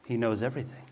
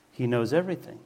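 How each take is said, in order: First: He knows everything, with knows leaned on and a soft rise at the end; stress on knows. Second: He knows everything, with everything leaned on and a soft rise at the end; stress on everything. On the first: Preacher to the congregation, knows stressed. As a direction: lean into "knows" as you ask the congregation. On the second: Preacher to the congregation, everything stressed. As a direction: shift the weight to "everything" and let it lift. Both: Shown as a demonstration. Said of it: "is it simple as it sounds".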